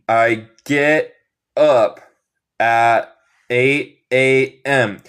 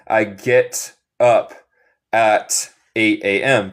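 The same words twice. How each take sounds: First: The final T sounds are dropped. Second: The final T sounds are clearly pronounced. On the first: This is how it sounds in the United States. "yo no digo el T final. Eso es una cosa de acento estadounidense" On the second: This is a neutral way of speaking English. "Se puede decir el T final si quieres. Esto sería inglés neutral"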